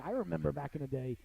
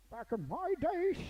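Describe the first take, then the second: First: Said in the usual way. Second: Put-on high, slow crotchety old-timer; old man voice. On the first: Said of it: "back in my day, sonny boy". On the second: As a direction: creak it out like a grumpy grandpa. Cranky old-timer impression.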